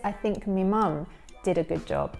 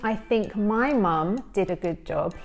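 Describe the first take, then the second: First: The pronoun is said with a short 'me' vowel. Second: The pronoun is said with a full 'my' vowel. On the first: "he says" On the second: "instead of saying"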